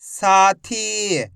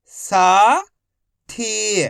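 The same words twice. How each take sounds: First: Whole word in one go, vowels held; syllables joined. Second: Each syllable slowly held, first one rising. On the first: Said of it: "तो मिलके बन जाएगा". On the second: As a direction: break the word into long, separate syllables. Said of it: "एक अक्षर का उच्चारण करके". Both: Shown as a demonstration.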